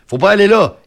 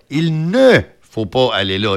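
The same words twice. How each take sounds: First: Said in the usual way. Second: Ne said clearly and slowly, set apart; stress on ne. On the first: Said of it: "Il manque un mot pour que ma phrase soit correcte". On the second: Shown as a demonstration. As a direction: lean on the little word ne before faut pas. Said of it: "Le ne". (appuyer sur le ne, lentement et distinctement)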